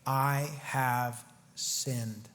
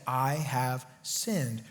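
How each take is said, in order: First: Slow, low, hushed admission of guilt; mournful confession. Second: Slow low confession, drawn out and quiet; mournful confession. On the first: Saul confessing to David, slow and hushed. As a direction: let it sink out slowly, ashamed. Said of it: "we see Saul say". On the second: Saul admitting guilt to David, slow and low. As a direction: sigh it out heavily, ashamed. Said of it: "then Saul said". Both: Acted.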